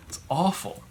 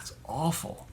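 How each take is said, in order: First: Said in the usual way. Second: Breathless whisper of disgust; whispered dismay. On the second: Real, not acted. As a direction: drop to a whisper on "it's awful". Dismay at the shop story.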